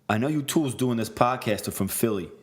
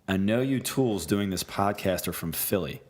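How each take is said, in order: First: It is read in a put-on Boston accent. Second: It is read in the speaker's ordinary voice.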